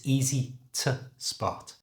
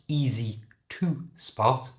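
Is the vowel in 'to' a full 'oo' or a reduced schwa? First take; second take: schwa; full oo. First: The word 'to' has a reduced schwa vowel. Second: The word 'to' has a full 'oo' vowel. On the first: The speaker calls it right. "it's easy to spot" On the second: The speaker calls it wrong. "So it's not easy to spot"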